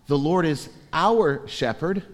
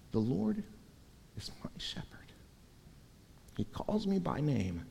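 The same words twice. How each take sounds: First: Said in the usual way. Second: Breathy whispered scripture, much softer; hushed whisper. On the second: Shown as a demonstration. Preacher quoting the psalm to his congregation in a hush. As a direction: whisper it like a secret prayer. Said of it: "it begins, not".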